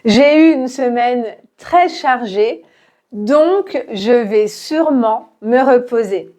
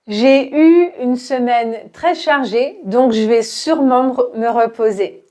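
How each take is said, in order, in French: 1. La phrase est dite lentement, avec chaque voyelle prononcée. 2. La phrase est plus rapide, on supprime la voyelle de « je ». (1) "répète lentement" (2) "Un peu plus vite, on va enlever le premier E euh, dans je vais"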